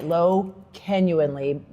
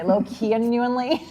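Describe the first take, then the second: First: "Low-genuinely" slowly, as low-KEN-yuinely; pronounced without the Y. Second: "Low genuinely" slowly, as low-KEE-nyuinely; pronounced with key. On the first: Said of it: "low genuinely is really hard to say". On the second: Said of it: "Low key". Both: Shown as a demonstration.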